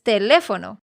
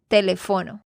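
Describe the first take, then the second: First: The stress falls on the usual syllable. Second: The stress falls on an unusual syllable. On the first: The speaker calls it right. "tú sabes que es teléfono" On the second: The speaker calls it wrong. "pusiste mal el acento"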